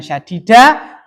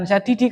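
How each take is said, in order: First: The word ends in the vowel a. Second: The word ends in the vowel i. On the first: "bukan syadida" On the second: "bukan syadidi"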